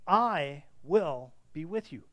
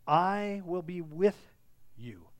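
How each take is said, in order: First: "I" hit loud and long, "will" set apart, "be with you" falling away; slow, weighty "I... will... be with you"; underlined statement. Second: Loud, slow "I", hushed "you" after a pause; emphatic statement. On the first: Shown as a demonstration. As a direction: punch and stretch "I", then let "be with you" fall. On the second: Acted. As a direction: stretch "I" loud and slow, set "you" apart and drop it. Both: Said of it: "underline that word, uh, that statement".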